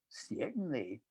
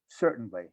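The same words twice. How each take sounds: First: It is said in a mocking falsetto. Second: It is said in a normal voice.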